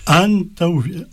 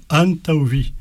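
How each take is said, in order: First: Said in the usual way. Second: "Antauvi" said higher, stress on the tau before vi. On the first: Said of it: "tu peux dire par exemple". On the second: Shown as a demonstration. Teacher demonstrating the stress of "Antauvi" to learners. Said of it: "l'accent tonique sur le vie".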